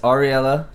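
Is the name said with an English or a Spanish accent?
English. The name is said with an English accent. This is how English speakers say it.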